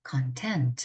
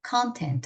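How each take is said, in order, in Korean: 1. 강세는 마지막 음절에 있어요. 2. 강세는 첫 음절에 있어요. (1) "뭔가를 만족시키다라는 동사가 됩니다" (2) "내용이라는 명사가 되고"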